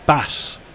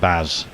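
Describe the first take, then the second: First: The name ends with an s sound. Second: The name ends with a z sound. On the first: The speaker calls it right. "With an S. ... Like the fish" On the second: The speaker calls it wrong. "not Baz"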